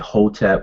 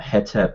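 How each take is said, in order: First: The first vowel is an O sound. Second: The first vowel is an E sound. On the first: "with an O" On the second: "Hetep with it, which H E T E P"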